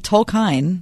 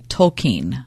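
First: Tolkien as tol-KINE, ending to rhyme with fine; variant pronunciation. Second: Tolkien as tol-KEEN, long ee ending; corrected pronunciation. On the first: Co-host quoting somebody's odd version, Tolkien as tol-KINE. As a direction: say the end of Tolkien as "kine", long i. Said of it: "Now, somebody said". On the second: Pupil correcting his professor on the name, Tolkien as tol-KEEN. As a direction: say Tolkien with a drawn-out "keen" at the end. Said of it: "he corrects the professor and says". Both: Retold or imitated.

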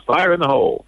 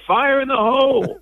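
First: Put-on a lighter echo of the boy's yell; mild kid imitation. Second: Put-on high laughing kid's yell; imitating child yelling. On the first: Host closing story with mild echo of boy's cry. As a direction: toss off the catchphrase fondly. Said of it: "good job, Mason". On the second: Host laughs while imitating boy's alarm cry. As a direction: yell it like a little kid, laughing. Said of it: "The only way he knew to say it".

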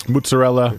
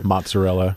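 First: "Mozzarella" said moots-a-RELL-a; "Mozzarella" with an Italian TS, moo-tsa; Italian pronunciation. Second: "mozzarella" said MAHT-suh-rella; "mozzarella" with an open AH, mahtsa; American pronunciation. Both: Shown as a demonstration. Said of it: "It's like saying Italian".

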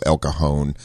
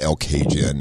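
First: Locals' El Cajon, the j like an h; "El Cajon" the proper Spanish way; correct El Cajon. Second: "El Cajun" said as KAY-jun with a hard j; the outsider's "El Cajun", like Cajun food; wrong El Cajun. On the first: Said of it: "learn to speak it properly". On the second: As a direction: misread "El Cajun" with an English j. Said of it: "not El Cajun". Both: Shown as a demonstration.

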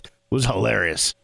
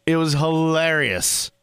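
First: Said in the usual way. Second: "It was hilarious" drawn out slowly for emphasis; stretched-out "It was hilarious", savoring it; slow emphatic repeat. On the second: Real, not acted.

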